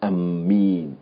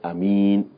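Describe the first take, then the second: First: The m sound is doubled and held. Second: The first vowel is short, nothing lengthened. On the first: The speaker calls it wrong. "it's not permissible to double the meme" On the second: The speaker calls it right. "to say Ameen without the mad"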